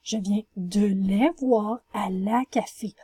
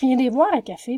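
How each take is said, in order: First: Every small word is said separately and fully. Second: The small words are squeezed together and partly dropped. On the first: The speaker calls it right. "Vous allez écrire" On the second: The speaker calls it wrong. "Si je vous dis"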